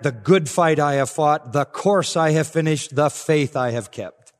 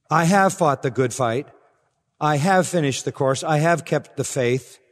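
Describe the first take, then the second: First: "The good fight", "the course", "the faith" stressed up front, slow and weighty; emphatic object first. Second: Said in the usual way. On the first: Shown as a demonstration. Preacher showing the emphatic Greek order, objects stressed. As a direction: lean on each object before its verb, "The good fight I have fought". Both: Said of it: "the Greek order is, I think, more emphatic".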